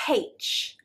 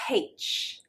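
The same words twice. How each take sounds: First: The letter name begins with an h sound. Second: The letter name begins with an h sound.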